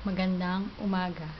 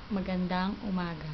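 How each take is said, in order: Both takes have the same delivery.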